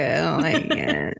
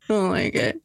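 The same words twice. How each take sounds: First: "like" leaned on, lower and slow; stress on like. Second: "I" stressed with a rise at the end. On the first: Friend trying the line one way, stressing "like" low and slow. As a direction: drag out "like" on a low falling tone. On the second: Friend trying the line again, stressing "I". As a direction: hit "I" and lift the ending. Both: Shown as a demonstration.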